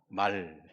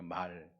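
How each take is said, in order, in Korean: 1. 모음을 짧고 끊어서 발음합니다. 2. 모음을 조금 더 길게 늘여 발음합니다. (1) "타고 다니는 말은" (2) "약간 길게"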